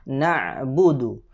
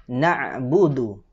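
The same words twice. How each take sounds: Both takes have the same delivery.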